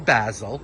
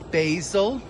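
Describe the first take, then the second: First: It is said in an English accent. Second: It is said in an American accent.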